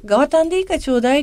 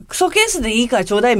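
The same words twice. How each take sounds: First: Quick, casual mock plea in Miyazaki dialect, a bit higher; offhand request. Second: Quick, slightly scornful, with a rise on ケース; dismissive request. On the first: Classmate at the reunion asking for the empty case, fast and offhand. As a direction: toss off ガワタン lightly and fast. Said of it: "そのガワタンだけ". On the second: Retold or imitated. Paraphrasing the classmate's scornful tone, fast and dismissive. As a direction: sneer at クソケース as if it were junk. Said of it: "みたいな感じのテンションで".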